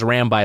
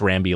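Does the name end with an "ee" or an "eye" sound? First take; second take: eye; ee. First: The name ends with an "eye" sound. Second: The name ends with an "ee" sound. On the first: "I always think of it as Rambi like Rabbi" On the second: "maybe it's Rambi like Bambi"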